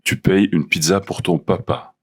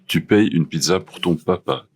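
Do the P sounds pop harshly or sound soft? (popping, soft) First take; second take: popping; soft. First: The P sounds pop with bursts of air. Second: The P sounds are soft without air bursts.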